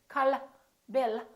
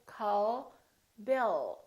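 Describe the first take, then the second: First: The final L is released with a light vowel. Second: The final L is held without any release. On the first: The speaker calls it wrong. "We don't say" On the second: The speaker calls it right. "We say call Bill. So the tongue is relaxed"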